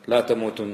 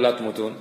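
First: لا تموتن with the short emphatic ending tamutun; corrected recitation لا تموتن; correct reading. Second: لا تموتون said with the long plain ending tamutun; questioning misreading of لا تموتون; mistaken reading. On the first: Shown as a demonstration. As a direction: give the right reading, لا تموتن, clipped nun at the end. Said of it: "لا، المراد". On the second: Retold or imitated. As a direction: quote the wrong reading, لا تموتون, full ending. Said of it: "كيف الله يقول".

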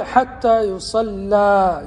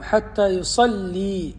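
First: يصلى ending in a long open "aa", yusallaa; fatha on the lam. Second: يصلي ending in a long "ee", yusallee; kasra on the lam. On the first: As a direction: draw out the open "laa" at the end of يصلى. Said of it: "فتح اللام". (يصلى بفتح اللام) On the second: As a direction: slowly draw out the "lee" at the end of يصلي. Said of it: "أخرى بكسر اللام". (يصلي بكسر اللام) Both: Shown as a demonstration.

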